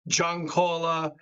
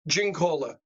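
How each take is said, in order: First: The name is said with Italian pronunciation. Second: The name is said like English 'gin cola'. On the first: "the Italian way is" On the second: "I've always said Giancola. Gin, gin cola"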